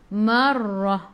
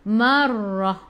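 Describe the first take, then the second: Both takes have the same delivery.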